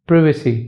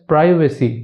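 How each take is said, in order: No difference in how they are said.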